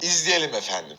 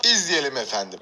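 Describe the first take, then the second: First: Low, polished presenter phrasing; TV announcer voice. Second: Low, formal newsreader delivery; TV announcer voice. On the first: Repeating the anchor phrase to viewers, TV presenter voice. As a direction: sign off the clip like a news anchor. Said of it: "televizyon spikerlerinin kullandığı bir laf". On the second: Youtuber slipping into a TV presenter voice for viewers. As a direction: intone it like a television presenter. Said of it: "Televizyon spikeri gibi oldum". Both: Shown as a demonstration.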